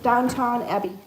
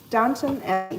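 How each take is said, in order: First: The first word ends with a full 'town' sound. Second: The first word ends with a reduced 'ton' sound. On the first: The speaker calls it wrong. "I always said Downtown Abbey" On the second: The speaker calls it right. "Downton Abbey, not downtown"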